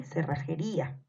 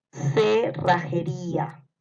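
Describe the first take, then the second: First: Said in the usual way. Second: Very slow, stretched "Cerrajería"; dictation. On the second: Shown as a demonstration. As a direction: draw out each syllable of "Cerrajería". (dictado muy lento de "Cerrajería") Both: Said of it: "les voy a ir dictando".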